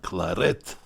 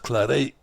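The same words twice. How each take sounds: First: The name is pronounced the Spanish way. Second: The name is pronounced the French way. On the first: The speaker calls it right. "the Spanish pronounce it Claret" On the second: The speaker calls it wrong. "Some people think it should be pronounced Claret"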